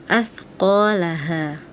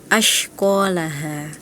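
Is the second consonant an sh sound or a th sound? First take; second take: th; sh. First: The second consonant is a soft th sound. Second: The second consonant is an sh sound. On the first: The speaker calls it right. "harusnya bacanya seperti itu" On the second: The speaker calls it wrong. "huruf tha dilafalkan seperti huruf shin"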